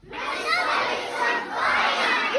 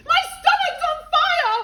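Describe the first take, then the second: First: Slow, high drawn-out repeat; slow echo. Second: Much higher, louder wail; panicked shout. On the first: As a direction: stretch the cry out. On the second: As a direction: cry out in alarm. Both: Acted.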